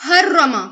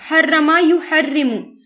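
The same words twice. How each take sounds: First: Said in the usual way. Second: حرما یحرم drawn out slowly, each syllable clear; slow Arabic recitation. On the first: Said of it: "اس نے حرام کر دیا". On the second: Shown as a demonstration. Teacher to students, slowly sounding out حرما یحرم. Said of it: "حرام کرنا".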